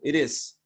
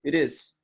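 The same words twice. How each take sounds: Both takes have the same delivery.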